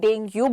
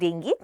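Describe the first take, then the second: First: The word ends with an 'oo' sound. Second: The word ends with an 'ee' sound. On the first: "या आप डेंगू बोलते हैं" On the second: "it's usually pronounce as डेंगी"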